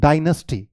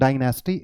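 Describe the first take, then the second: First: Dynasty as "DIE-nus-tee"; corrected dynasty, short "nus"; correct pronunciation. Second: Dynasty with full "nas", "die-NAS-tee"; the mistaken dynasty vowel; wrong pronunciation. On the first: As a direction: say dynasty with a reduced middle vowel. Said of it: "it's dynasty". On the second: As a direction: say dynasty with an open middle a. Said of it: "it's not". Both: Shown as a demonstration.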